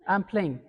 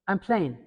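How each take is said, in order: No difference in how they are said.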